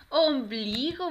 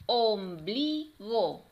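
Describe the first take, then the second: First: Loud, drawn-out, joined-up "Ombligo"; triumphant "Ombligo" for the children; cheering the answer. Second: Slow "Om-bli-go" in three beats; teacher counting out each syllable of "Ombligo". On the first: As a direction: celebrate the right answer. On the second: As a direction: split "Ombligo" with clear gaps. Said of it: "vamos a separar cada una". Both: Shown as a demonstration.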